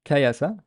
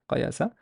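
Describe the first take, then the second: First: "kayasa" with a front k and bright front a. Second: "qayasa" with a uvular q and backed a; velarized qayasa. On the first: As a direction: keep "kayasa" forward. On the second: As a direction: pull the "qayasa" vowel back. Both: Shown as a demonstration. Teacher shows the fatha contrast. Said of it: "this is the most prominent".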